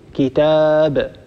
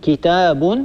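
First: The word ends on a bare, unvoweled b. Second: The word ends with a short vowel plus n. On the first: The speaker pauses on the word. "تحذف النون الساكنة وتقف على الكلمة بالسكون" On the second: The word is joined to what follows. "فبدل أن تقول كتاب"

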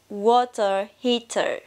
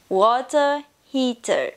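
First: It is said in a British English accent. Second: The same.

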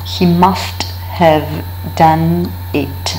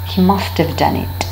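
First: The h sound in have is pronounced. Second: The h sound in have is dropped.

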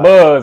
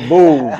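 First: The name sounds like the word buzz. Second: The name sounds like the word booze. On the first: The speaker calls it wrong. "Not Buzz" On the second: The speaker calls it right. "pronounced like alcohol, beer"

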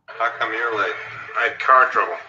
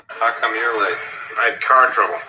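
Both takes have the same delivery.

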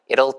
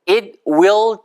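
First: The two words are run together into one. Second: Both words are said fully and separately.

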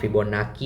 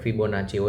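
First: The name is said with a 'k' sound. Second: The name is said with a 'ch' sound. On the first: This is how many people commonly say it. "ફિબોનાકી એ બોલતા હોય છે" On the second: This is the original pronunciation. "ફિબોનાચી original pronunciation છે"

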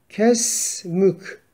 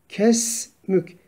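No difference in how they are said.

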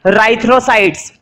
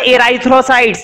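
First: The word starts directly with the 'r' sound. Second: The word starts with an 'e' vowel sound. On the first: The speaker calls it right. "ई silent है" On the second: The speaker calls it wrong. "ये मत पढ़ना एराइथ्रोसाइट्स, नहीं गलत हो जाएगा"

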